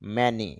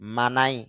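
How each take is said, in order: First: The vowels are short 'a' then 'ee'. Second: The vowels are 'ah' then 'eye'. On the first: The speaker calls it right. "ম, এ, তে মে, তারপর ন, ই" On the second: The speaker calls it wrong. "এম এ মা এন আই নাই"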